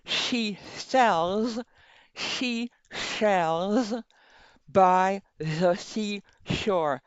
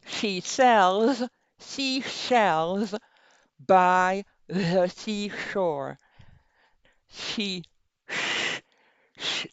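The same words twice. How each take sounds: First: Slow tongue twister through a pen; pen in teeth. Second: Slow tongue twister around a pen; pen in teeth. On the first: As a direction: speak slowly past a pen in the teeth. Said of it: "so you can still hear it, even if it's not perfect". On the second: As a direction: enunciate slowly with a pen in the teeth. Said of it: "Put it at the limit of your smile". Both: Shown as a demonstration.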